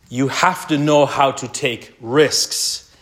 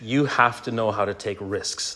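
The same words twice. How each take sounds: First: Every word of "You have to know how to take risks" drawn out slowly, "know" rising; slow emphatic repeat. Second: Said in the usual way. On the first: Real, not acted. Preacher driving his point home to dads, slow and stressed.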